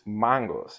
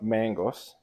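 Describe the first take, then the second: First: The word has a Kenyan-style pronunciation. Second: The word has an American-style pronunciation. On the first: The speaker calls it right. "You gotta say it right" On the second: The speaker calls it wrong. "it's not mangoes"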